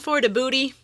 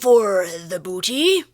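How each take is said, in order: First: It is said in a plain, ordinary accent. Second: It is said in a put-on pirate accent. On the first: The speaker calls it wrong. "otherwise it just sounds weird" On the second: The speaker calls it right. "you gotta say it with the accent"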